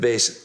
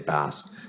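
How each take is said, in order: First: The word is pronounced like the musical instrument. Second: The word is pronounced like the fish name. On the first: The speaker calls it right. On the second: The speaker calls it wrong.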